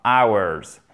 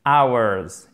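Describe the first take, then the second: First: "Hours" with no aspirated h, like "ours"; "Hours" rhymes with "ours", h silent. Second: "Hours" said like "ours", no h sound; "Hours" begins straight on the vowel, like "ours"; silent h. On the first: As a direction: start "Hours" right on the vowel. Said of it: "le H aspiré ne se prononce pas". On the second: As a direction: drop the h in "Hours". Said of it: "Il n'y a pas de H". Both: Shown as a demonstration.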